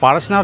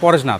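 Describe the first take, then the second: First: The first vowel is an open 'aa' sound. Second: The first vowel is a rounded 'o' sound. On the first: This is the local Hindi way of saying the name. The speaker calls it right. "इधर तो लिखा है पारसनाथ" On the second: This is how Bengali speakers say the name. The speaker calls it wrong. "वो लोग बोलते हैं पारसनाथ नहीं, पॉरसनाथ है"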